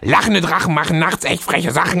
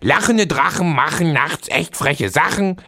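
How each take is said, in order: First: It is said at a faster speed. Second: It is said at a moderate speed.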